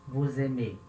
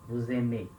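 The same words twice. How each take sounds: Both takes have the same delivery.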